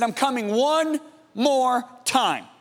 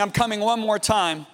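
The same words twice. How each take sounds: First: Slow, solemn pronouncement; slow and deliberate, as a divine announcement; Holy Spirit. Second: Said in the usual way. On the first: Retold or imitated. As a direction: draw out each word with weight. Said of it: "the Holy Spirit said to me". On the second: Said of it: "of him saying".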